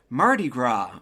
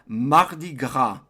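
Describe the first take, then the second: First: It is said with an English accent. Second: It is said with a French accent.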